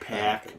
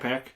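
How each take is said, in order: First: The a vowel is strongly drawn out, Chicago-style. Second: The a vowel is plain, without Chicago coloring. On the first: This is how Chicagoans say it. "We say the a really pronounced" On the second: This is how people elsewhere say it. "other people say"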